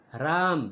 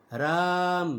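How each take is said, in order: First: Said in the usual way. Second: राम with the vowel after र stretched very long; drawn-out vowel. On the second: Shown as a demonstration. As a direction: hold the vowel in राम about three times its usual length. (राम को खींचकर लंबा बोलें) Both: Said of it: "मतलब र को बहुत खींच के ले जाना".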